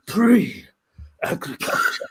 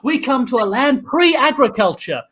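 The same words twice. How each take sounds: First: PRE-AGRICULTURE stretched out very slowly; mock-mystical, lingering on every part of "Pre-agriculture"; drawn-out echo. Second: Said in the usual way. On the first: Echoes the word for effect.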